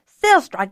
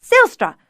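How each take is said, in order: First: Loud bellowed name again. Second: High, loud bellowed name. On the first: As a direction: call out across the kitchen. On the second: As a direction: bellow across the kitchen. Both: A narrator's reading. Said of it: "She raised her voice to a bellow".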